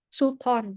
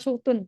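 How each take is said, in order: First: The second syllable has an 'ah' vowel. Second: The second syllable has an 'oo' vowel. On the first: The speaker calls it right. "Sultan, bukan Sultun" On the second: The speaker calls it wrong. "bukan Sultun"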